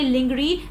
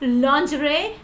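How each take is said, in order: First: The middle sound is a hard g sound. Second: The middle sound is a soft zh, no g. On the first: The speaker calls it wrong. "Don't say lingerie" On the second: The speaker calls it right. "There is no g sound while you pronounce this word"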